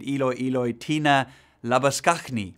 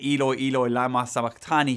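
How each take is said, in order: First: The phrase ends with 'tina labaskachni'. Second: The phrase ends with 'lama sabachthani'. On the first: The speaker calls it wrong. "she said" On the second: The speaker calls it right. "instead of saying that"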